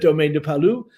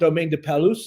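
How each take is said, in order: First: The final s of the last word is silent. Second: The final s of the last word is pronounced. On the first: The speaker calls it right. "the French never say their last letters" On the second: The speaker calls it wrong. "it's not Domaine de Palus, as I used to call it"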